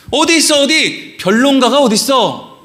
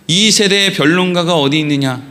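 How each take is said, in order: First: Urgent colloquial calling-out in short bursts; insistent searching demand. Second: Low, even verse recital; composed Bible reading in a low pitch; scripture reading. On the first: Shown as a demonstration. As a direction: challenge the debater to step forward. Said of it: "이런 식으로 읽는 거예요". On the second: Acted. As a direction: read it formally, falling at the end. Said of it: "그리고 또 이어서는 이렇게 돼 있죠".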